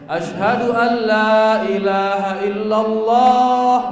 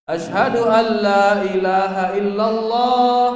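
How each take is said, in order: The two takes are said the same way.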